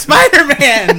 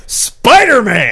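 First: Slow, high, louder echo of Spider-Man; match the big reveal. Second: High, slow announcer reveal of Spider-Man; dramatic reveal. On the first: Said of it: "echoing the reveal". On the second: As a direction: announce it like a trailer. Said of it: "big reveal". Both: Acted.

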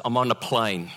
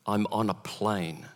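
First: Said in the usual way. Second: Slow and hushed, each word weighted; slow, grave repeat. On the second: Real, not acted. Pastor relives being trapped mid-flight, slow grave repeat. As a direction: say it softer, letting dread sink in.

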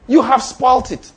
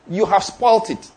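First: "You have spoilt it" said again, slower and pressed harder; emphatic repeat. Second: Said in the usual way. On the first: Shown as a demonstration. Preacher warning the congregation about bargaining seeds, emphatic repeat. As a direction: hammer the point home a second time.

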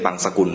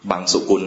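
First: บังสกุล with a short sa, dropping the first u; the wrong way, บัง-สะ-กุล; common mispronunciation. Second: บังสุกุล said with two u vowels, bang-su-kun; correct pronunciation. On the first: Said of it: "ไม่ใช่บังสกุลนะ". (ออกเสียงผิดเป็นบังสกุล) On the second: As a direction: say บังสุกุล carefully, บัง-สุ-กุล. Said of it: "ต้องออกเสียงให้ถูกนะ". (ออกเสียงบังสุกุลให้ถูก มีสระอุสองตัว) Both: Shown as a demonstration.

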